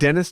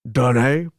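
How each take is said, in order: First: The name is said with English pronunciation. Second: The name is said with French pronunciation. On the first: "isn't Dennis?" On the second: "Don't they say Dene?"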